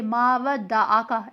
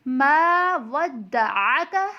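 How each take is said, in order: First: "मा वद्दअका" with a plain open आ, no throat sound; ain said as alif. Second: Slow "मा वद्दअका", long "मा", अ drawn from the throat; correct throaty ain. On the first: Teacher imitates a common mistake, "वद्दअका" without the throaty ain. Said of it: "कुछ लोग अलिफ की तरह". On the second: Teacher gives the right reading, "वद्दअका" with long throaty ain. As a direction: hold "मा" and squeeze the अ of "वद्दअका" in the throat. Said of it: "बल्कि पढ़ना है". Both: Shown as a demonstration.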